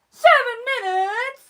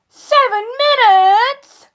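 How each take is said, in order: First: Said in the usual way. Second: Slow, loud and emphatic; loud, drawn-out announcement; loud exclamation. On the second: Real, not acted. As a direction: punch out the time, stretching each word. Exclaims streaming time, then repeats.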